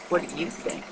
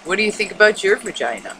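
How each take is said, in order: First: Much softer, gently put question; soft probing question. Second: Said in the usual way. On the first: Retold or imitated. Casually asking women friends, soft probing question. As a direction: drop the volume and ask it gently. Repeats the question more softly.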